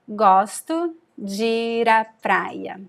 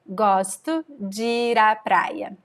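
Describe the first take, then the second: Both takes have the same delivery.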